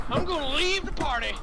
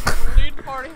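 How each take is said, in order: First: Said in the usual way. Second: Louder, pushed second take; louder repeat. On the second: Pretend. Gamer repeating his exit line, louder. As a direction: belt the line the second time.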